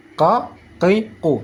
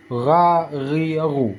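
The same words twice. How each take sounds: First: "ka, ki, ku" each one back stop; single-scrape qaf. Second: "Ra, ri, ru" with throaty vibration; gargled ghain. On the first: Teacher contrasting with the gargle, "ka, ki, ku" knocked once each. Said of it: "Sekali kerok". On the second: Teacher after the gargling tip, "Ra, ri, ru" buzzed in the throat. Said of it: "Seperti getaran saat kita berkumur-kumur". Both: Shown as a demonstration.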